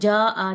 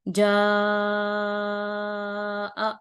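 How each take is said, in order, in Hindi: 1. स्वर छोटा बोला गया है, खींचा नहीं गया। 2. स्वर लगभग पांच हरकत तक खींचा गया है। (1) "इसको जा आ नहीं पढ़ेंगे बल्कि इसको लंबा करेंगे" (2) "पांच हरकत करना है तो"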